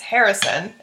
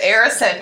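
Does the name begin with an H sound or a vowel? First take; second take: H sound; vowel. First: The name begins with an H sound. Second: The name begins with a vowel sound. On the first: "Am I pronouncing that right?" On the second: "Because the H is silent"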